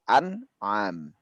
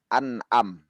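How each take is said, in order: First: It has a throaty ain sound in the middle. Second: It has a sharp glottal stop in the middle. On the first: The speaker calls it right. "tapi an'am" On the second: The speaker calls it wrong. "bukan an'am"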